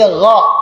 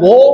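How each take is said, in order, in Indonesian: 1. Vokalnya terbuka, seperti a. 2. Vokalnya membulat, seperti o. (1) "tapi gha, dibuka gha ya" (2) "bukan go"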